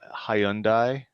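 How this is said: It is said in a British-style pronunciation. "outside of, you know, normal English land ... is how you're supposed to say it"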